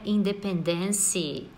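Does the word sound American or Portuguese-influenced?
Portuguese-influenced. It is said with a Portuguese-like pronunciation. The speaker calls it wrong. "não é independence ou algo do gênero"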